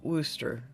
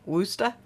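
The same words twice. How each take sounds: First: The word is said in an Oklahoma accent. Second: The word is said in a Boston accent. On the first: "pronounced in Oklahoma" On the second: "if you put your Boston accent on it"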